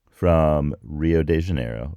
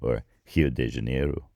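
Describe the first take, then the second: First: The name is said with an English pronunciation. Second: The name is said with a Portuguese pronunciation.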